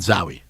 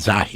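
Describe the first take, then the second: First: The middle consonant is a w sound. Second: The middle consonant is an h sound. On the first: The speaker calls it wrong. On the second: The speaker calls it right.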